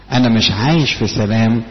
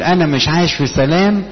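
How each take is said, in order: First: Said in the usual way. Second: Higher complaining voice, the troubled believer; a hint of a troubled believer's whine; imitated complaint. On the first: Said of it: "لا، في الحقيقة لا". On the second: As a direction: lift it up like a worried person griping "انا مش عايش في سلام". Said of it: "ان انا اقول".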